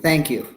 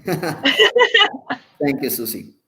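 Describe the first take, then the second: First: Said in the usual way. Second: Amused, laughing thank you. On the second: Real, not acted. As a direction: let the laugh spill into the thanks.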